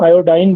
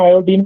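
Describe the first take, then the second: First: The last syllable sounds like 'ine'. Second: The last syllable sounds like 'een'.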